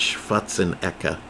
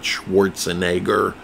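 First: The name is said in a German-sounding way. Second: The name is said in a Jewish-sounding way. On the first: The name is taken as a German name. The speaker calls it right. "It's Schwarzenegger" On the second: The speaker calls it wrong.

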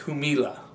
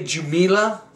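First: The word is pronounced the Spanish way. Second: The word is pronounced the English way. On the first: "but no doubt in Spanish, it's Jumilla" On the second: "We would say Jumilla in English"

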